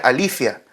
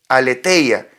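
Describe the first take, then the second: First: It is pronounced the modern Greek way. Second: It is pronounced the classical, written way. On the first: "en realidad se pronuncia alifia, ¿no? En el griego actual" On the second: "allí en el griego es aletheia"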